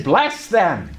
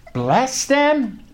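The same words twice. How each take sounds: First: Said in the usual way. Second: Higher, questioning echo of the command; incredulous echo. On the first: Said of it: "He says". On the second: Retold or imitated. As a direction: repeat it back as a doubtful question. His startled echo of God's command.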